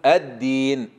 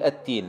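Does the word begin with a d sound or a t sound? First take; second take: d; t. First: The d sound is a clear voiced d. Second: The d sound comes out as a t. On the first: The speaker calls it right. "لا قل الدين" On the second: The speaker calls it wrong. "فالبعض يقول التين"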